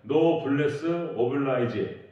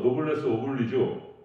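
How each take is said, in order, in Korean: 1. 영어식으로 발음하며, 끝은 'oblaizh'입니다. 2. 프랑스식으로 발음하며, 끝은 'oblizh'입니다. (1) "영어식 발음으로는" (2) "프랑스어로"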